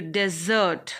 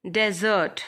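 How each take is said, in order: First: Desert said as di-ZERT, first vowel weak; diZERT, to leave; stress on second syllable. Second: Noun desert: punch DEZ; DEZert, the dry land; stress on first syllable. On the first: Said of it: "where it is verb". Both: Shown as a demonstration.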